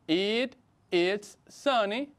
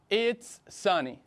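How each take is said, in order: First: It is said as two separate full words. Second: It is said as one contracted syllable. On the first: "también se puede decir de forma larga" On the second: "utilizamos la versión contraída"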